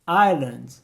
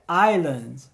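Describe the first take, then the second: The two takes are said the same way.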